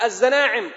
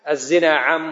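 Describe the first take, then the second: First: It is run together like an auctioneer's call. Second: It is said as a plain, measured statement. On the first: The speaker calls it wrong. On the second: The speaker calls it right.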